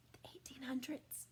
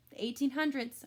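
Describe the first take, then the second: First: "The eighteen hundreds" whispered, no voice. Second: Said in the usual way. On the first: Shown as a demonstration. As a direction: hush the date in awe. Whispered repeat for effect.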